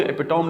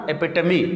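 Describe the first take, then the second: First: ایپیٹوم as "epi-tome"; wrong spelling pronunciation. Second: ایپیٹمی as "e-PIT-uh-mee"; four syllables in ایپیٹمی, ending in ee; correct pronunciation. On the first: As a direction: end ایپیٹوم on a long o and m. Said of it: "ایپیٹوم نہیں پڑھنا". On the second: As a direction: sound the last e of ایپیٹمی. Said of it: "اس کو ایپیٹوم نہیں پڑھنا". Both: Shown as a demonstration.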